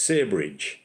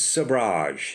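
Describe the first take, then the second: First: The word is said with an English accent. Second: The word is said with a French accent. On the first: "the English version" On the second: "in my best French accent"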